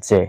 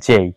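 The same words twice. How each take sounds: First: "জে" as a flat "je" without glide; "জে" cut to "je", no final i; wrong letter sound. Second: "জেই" with a gliding "ay"; "জেই" with full ei diphthong; correct letter name. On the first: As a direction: say "জে" with a pure e vowel. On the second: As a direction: say "জেই" as "jay", ending on i. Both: Shown as a demonstration. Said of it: "not জে".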